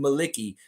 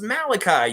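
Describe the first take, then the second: First: The name ends with a 'kee' sound. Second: The name ends with a 'kai' sound. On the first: The speaker calls it wrong. "is there anyone in this world actually pronouncing the name Maliki?" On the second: The speaker calls it right. "No, it's Malachi, you idiot"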